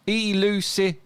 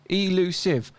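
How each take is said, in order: First: Elusive drawn out as ee-loo-si-vuh, high; four syllables. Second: Elusive in three syllables, E-LU-SIVE. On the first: Mocking the four-syllable claim, elusive split as ee-loo-si-vuh. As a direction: stretch elusive into four parts, voicing the final ve. Syllable demo, sounded out with extra syllable. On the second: Reading out an online syllable lookup, elusive in three clear syllables. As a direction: sound out elusive as ee-loo-siv. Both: Shown as a demonstration.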